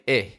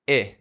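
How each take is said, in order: First: The vowel is lax and cut short. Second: The vowel is lax and cut short.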